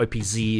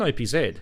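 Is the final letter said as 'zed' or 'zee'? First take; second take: zee; zed. First: The final letter is said as 'zee'. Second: The final letter is said as 'zed'. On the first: "if you're coming from Andy's world" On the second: "They're Zeds, mate"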